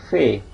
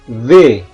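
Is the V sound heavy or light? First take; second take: light; heavy. First: The V sound is said light. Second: The V sound is said heavy. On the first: The speaker calls it wrong. "dalam bahasa Indonesia biasanya kita sebutnya V" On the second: The speaker calls it right. "dalam bahasa Prancis itu dia diucapkan V, berat V-nya"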